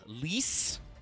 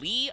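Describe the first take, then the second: First: The name ends with an S sound. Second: The name ends on a vowel, no final S.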